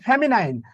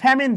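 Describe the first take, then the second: First: It is said with three syllables, ending in 'nine'. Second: It is said with two syllables, ending in 'min'. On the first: The speaker calls it right. "আরে ভাই হবে ফ্যামিনাইন" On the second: The speaker calls it wrong. "কয় ফ্যামিন gender"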